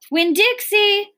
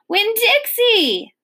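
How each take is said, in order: First: High-pitched calling of a name; shouted call. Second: High, drawn-out cry of a name; screamed call. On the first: Preacher searching for daughter's lost dog, shouting high. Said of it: "the preacher shouted". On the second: Girl calling her lost dog in rain, screamed high and long. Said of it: "I screamed". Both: A narrator's reading.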